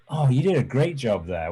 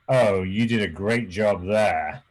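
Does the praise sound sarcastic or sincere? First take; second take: sincere; sarcastic. First: The praise is said in a sincere tone. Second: The praise is said in a sarcastic tone. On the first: The praise is meant. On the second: The praise is not meant.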